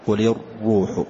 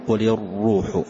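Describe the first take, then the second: Both takes have the same delivery.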